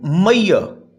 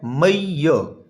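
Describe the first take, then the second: First: Said in the usual way. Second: मैयर drawn out as two syllables, may-yer. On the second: Shown as a demonstration. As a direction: stretch both syllables of मैयर. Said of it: "ये two syllable word है". (میئر کو دو حصوں میں کھینچ کر بولیں)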